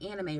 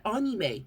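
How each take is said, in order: First: Anime said "AN-ih-may"; English pronunciation. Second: Anime said "AH-nee-may"; affected foreign pronunciation. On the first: Retold or imitated. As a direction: say anime with the "a" of "cat". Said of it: "anime is not a word in English". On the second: Acted. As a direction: overdo anime with an open "ah" at the start. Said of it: "We're not gonna say".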